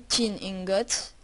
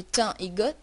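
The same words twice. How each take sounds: First: "tin ingot" with tin said as English tin, slowly; slow self-correction to English tin; corrected English tin. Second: "thym ingot" with thym said like the French herb, tɛ̃; Frenchified thym before ingot; French-sounding thym. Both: Real, not acted. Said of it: "in-, tin ingot".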